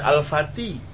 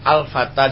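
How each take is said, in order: First: The final vowel is shifted toward 'i'. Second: The final vowel is a plain open 'a'.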